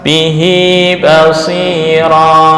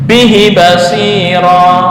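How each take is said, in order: First: The final vowel of bihi is lengthened. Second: The final vowel of bihi is short. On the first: It follows the recitation rule. The speaker calls it right. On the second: It follows the written form. The speaker calls it wrong.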